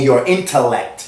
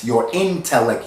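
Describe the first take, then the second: First: Said in the usual way. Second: "intellect" slower, with a clear full "tel" in the middle; INTELLECT broken down. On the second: Shown as a demonstration. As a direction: draw out "intellect" to show the "intel" inside it.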